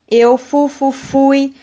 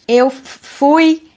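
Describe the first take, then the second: First: A whole syllable is repeated before the word. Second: A single sound is repeated before the word. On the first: "repetir sílabas" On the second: "repetir sons"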